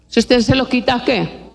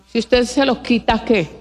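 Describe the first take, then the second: No difference in how they are said.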